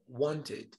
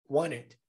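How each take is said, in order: First: The T and the ending are clearly pronounced. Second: The T drops, leaving mostly an N sound. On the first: "teria o som do E D" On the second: "O som do T décima desaparecida"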